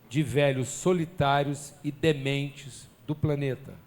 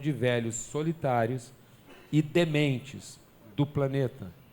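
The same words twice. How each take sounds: First: The phrase is spoken at a normal pace. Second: The phrase is spoken slowly and deliberately.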